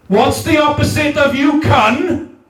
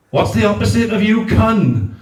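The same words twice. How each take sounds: First: Laughing shout, pitched higher, calling out to the whole crowd. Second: Said in the usual way. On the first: Acted. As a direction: throw it out to the room like a chant leader. Leading the crowd in the call.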